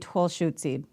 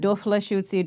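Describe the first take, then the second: First: The word begins with a t sound. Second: The word begins with a d sound. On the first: It follows how fluent speakers pronounce it. "they're honoring the fluent pronunciation of it" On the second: It follows the written grammatical form of the prefix. "We're utilizing the grammatical pronunciation of it"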